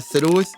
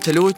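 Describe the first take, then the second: First: The word has a th sound instead of t. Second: The word starts with a t sound. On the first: This is required in Riyadh. "لكن هنا لازم تقول" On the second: This is fine in Jeddah. "أنا لما أروح جدة أقدر أقول"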